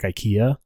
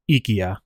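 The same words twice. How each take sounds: First: It is pronounced the usual American English way. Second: It is pronounced the original non-American way. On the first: The speaker calls it wrong. "how like people say like IKEA here in the U.S" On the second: The speaker calls it right. "but it's not IKEA"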